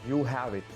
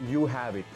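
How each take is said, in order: Both takes have the same delivery.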